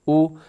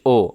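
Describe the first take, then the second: First: The vowel is a rounded u sound. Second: The vowel is an open o sound. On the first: The speaker calls it right. "पेश पे आपके होंठ गोल हो जाएं" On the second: The speaker calls it wrong. "ओ कर दिया जाता है"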